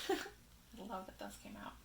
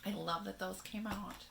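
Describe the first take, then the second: First: Whispered softly to yourself. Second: Said in the usual way. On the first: Shown as a demonstration. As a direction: breathe it out as a private aside.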